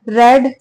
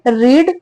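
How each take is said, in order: First: The vowel is short, like 'red'. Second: The vowel is long, like 'reed'. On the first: It is the past tense. "रेड second form" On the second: It is the present tense. "रीड first form"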